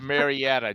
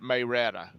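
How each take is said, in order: First: The name is said in the common way. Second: The name is said with the old local sounds. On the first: This is the usual name of the town. "it's Marietta, Georgia" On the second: This is how longtime locals say it. "her his grandmother, and her friends called it Mayretta"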